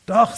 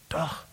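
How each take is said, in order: First: Loud, high, insistent contradiction; defiant retort. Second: Quiet stubborn retort. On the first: Elia insisting against the preacher, a loud high defiant retort. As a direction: snap it back higher and louder. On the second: Elia quietly contradicting the preacher, a mild stubborn retort. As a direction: mutter the yes-it-is under the breath. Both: Retold or imitated. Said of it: "sagte Elia".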